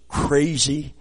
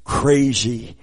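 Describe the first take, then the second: No difference in how they are said.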